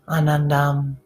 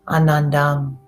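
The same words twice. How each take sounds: No difference in how they are said.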